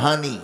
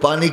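First: The word begins with an h sound. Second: The word begins with a p sound.

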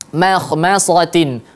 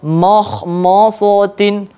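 First: Some letters sound heavy, others light. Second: Every letter is pronounced heavy and thick. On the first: The speaker calls it right. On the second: The speaker calls it wrong.

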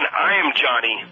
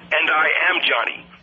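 First: "I am" is contracted to "I'm". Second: "I am" is said as two full words. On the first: This is how people normally speak. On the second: The speakers sound like foreigners.

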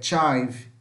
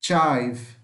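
First: The vowel sounds like 'eye'. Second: The same.

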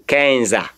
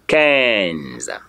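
First: A vowel is sounded after the final z. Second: The word ends on the z sound. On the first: The speaker calls it wrong. "Nobody should try to say Kenza" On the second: The speaker calls it right. "You only end your pronunciation in the Z"

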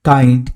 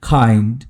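First: The first sound is an unaspirated k. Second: The first sound is an aspirated k. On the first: The speaker calls it wrong. "এইভাবে না বলে" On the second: The speaker calls it right. "যদি আমরা বলি"

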